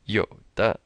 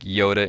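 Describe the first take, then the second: First: A low first syllable, a short pause, then the second. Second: It is said like the English name, without a break. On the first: The speaker calls it right. "Third tone, 有, a little pause, and then 的" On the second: The speaker calls it wrong. "Don't say Yoda like Yoda in Star Wars"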